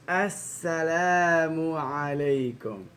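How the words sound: It is said with a smiling voice. The speaker calls it right. "you should smile"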